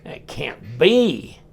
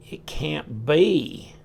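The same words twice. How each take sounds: First: Drawn out, slowly doubting; stretched-out surprise; slow disbelief. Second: Drawn out, still doubting; lingering slow doubt; slow disbelief again. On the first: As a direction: say it slowly like you can't believe it. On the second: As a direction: slowly repeat it, half to yourself. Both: Real, not acted. Surprise at the D-shaped pivot.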